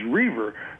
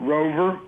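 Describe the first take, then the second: First: The O in the name is silent. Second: The O in the name is pronounced. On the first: The speaker calls it right. "my actual pronunciation, which is Reaver. The O is silent" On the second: The speaker calls it wrong. "I get called Rover"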